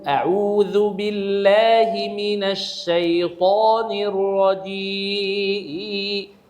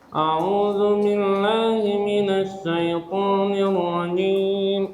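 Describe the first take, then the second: First: The voice resonates from the throat, not nose. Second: Every sound is nasalized through the nose. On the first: The speaker calls it right. "يكون من هنا آه هنا أحبال صوتية في الحنجرة" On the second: The speaker calls it wrong. "يقرأ بالغنة في جميع الحروف"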